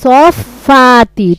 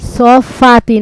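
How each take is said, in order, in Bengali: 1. ব্যঞ্জনটি দ্বিত্ব হয় এবং একটু বেশি সময় ধরে উচ্চারিত হয়। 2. ব্যঞ্জনটি একবার উচ্চারিত হয়, দ্বিত্ব নয়। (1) "তাসদিদ আছে যে দুইবার উচ্চারণ হবে" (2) "সফাতি না"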